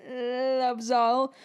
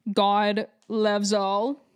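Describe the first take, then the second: First: "Loves all" with a real catch of tears; voice breaking. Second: Said in the usual way. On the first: Real, not acted. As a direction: let "Loves all" crack, close to crying. Speaker affirms faith, voice breaking.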